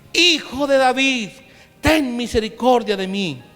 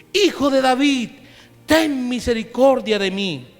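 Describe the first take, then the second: Both takes have the same delivery.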